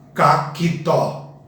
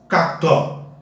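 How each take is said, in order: First: An extra i vowel splits the c and t. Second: The c and t join with no vowel between. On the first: The speaker calls it wrong. "Nunca vamos pronunciar caquitó" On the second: The speaker calls it right. "A palavra não é caquitó, é cactó"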